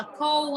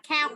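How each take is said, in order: First: "cow" said like kʰoh, a closed o sound; teacher showing the wrong "cow" with a closed o sound. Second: "cow" said as kʰaw, rhyming with how; teacher modelling "cow" with an open ow sound like how; correct cow. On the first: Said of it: "không đọc là cow". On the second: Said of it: "Chúng ta đọc là cow". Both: Shown as a demonstration.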